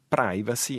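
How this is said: It is said the American English way. "è l'espressione nell'inglese americano"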